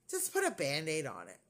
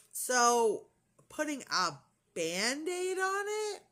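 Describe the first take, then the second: First: Imitating an offhand brush-off after a pfft; low, casual wave-away as the doctor; dismissive doctor. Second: Slow, stretched question climbing very high; incredulous. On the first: Doctor brushes off nurse's question. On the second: Real, not acted. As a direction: draw it out in rising disbelief. Incredulous echo of doctor's order.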